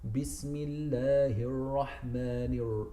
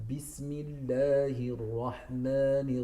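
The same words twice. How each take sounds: First: The r is said like an English r. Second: The r is tapped with the tongue tip. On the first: The speaker calls it wrong. "pronounce it like a, a British R" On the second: The speaker calls it right. "ticking you know, your palate with the tip of your tongue"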